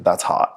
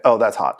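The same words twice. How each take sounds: First: Breathy, voiceless purr of a catchphrase; Paris Hilton. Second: Said in the usual way. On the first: Retold or imitated. Mocking scrollers who like hot posts, Paris Hilton whisper. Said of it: "I feel like it's Paris Hilton". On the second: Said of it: "And it's like".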